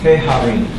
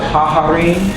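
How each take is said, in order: First: The first syllable has an 'eh' vowel. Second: The first syllable has an 'ah' vowel. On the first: The speaker calls it right. "So they change it to heharim" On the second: The speaker calls it wrong. "it really doesn't sound that great"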